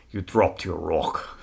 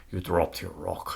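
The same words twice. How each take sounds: First: Slow, hushed quote of the Braveheart line "You dropped your rock."; a light nod to the film, no real accent; movie line quote. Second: Quiet, slow retelling of "You dropped your rock."; movie line quote. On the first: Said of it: "One of my favorite lines from that entire movie is". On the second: Retelling the rock-throwing scene to her cohost, quiet and slow. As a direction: lightly act the big guy's line, no accent. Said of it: "And he says". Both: Retold or imitated.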